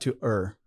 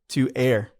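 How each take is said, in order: First: The word err is not said like air. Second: The word err is said like air. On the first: The speaker calls it wrong. "I just made a mistake" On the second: The speaker calls it right. "the correct pronunciation for that is air"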